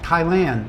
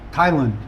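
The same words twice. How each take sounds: First: The last syllable has the vowel of 'hat'. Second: The last syllable has an 'uh' vowel, 'lund'. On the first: The speaker has always said it this way. "I pronounce the ah like hat" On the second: Other people say it this way. "other people pronounce it Lund"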